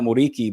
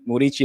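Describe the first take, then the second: First: The consonant before the last vowel is a hard k. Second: The consonant before the last vowel sounds soft, ch-like. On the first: The speaker calls it wrong. "not Muriki" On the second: The speaker calls it right. "you pronounce it Murici"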